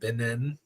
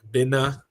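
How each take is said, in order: First: The final N sound is clearly pronounced. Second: The final N sound is left off. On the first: "instead of" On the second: "basically forget about the N at the end"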